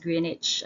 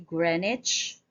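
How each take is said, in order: First: The first syllable sounds like "green". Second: The first syllable sounds like "gren". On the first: "Ang usual gid nga ginagamit ta diri, even me, I use this" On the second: "Gren instead of Green"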